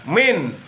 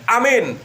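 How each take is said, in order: First: The first vowel is dropped from the word. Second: The first vowel is kept, all vowels short. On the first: "alifnya dihilangkan" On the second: "atau dibaca pendek semuanya"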